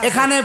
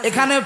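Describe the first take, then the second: The two takes are said the same way.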